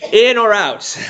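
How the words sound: It is said forcefully as an exclamation.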